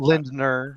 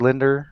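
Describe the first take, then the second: First: An N sound follows the D. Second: No N sound follows the D. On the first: This is the technically correct form of the name. "Technically Lindner" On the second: This is a simpler, acceptable form of the name. "You could just say Linder"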